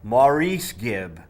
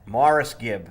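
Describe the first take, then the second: First: The first name sounds like 'Maurice'. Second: The first name sounds like 'Morris'. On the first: The speaker calls it wrong. "I have always said Maurice Gibb" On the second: The speaker calls it right. "Like Morris the cat"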